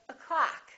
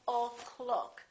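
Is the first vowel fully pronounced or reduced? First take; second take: reduced; full. First: The first vowel is a reduced uh sound. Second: The first vowel is a full O sound. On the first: The speaker calls it right. "becomes this uh sound, uh. So we say o'clock" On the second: The speaker calls it wrong. "We don't say o'clock"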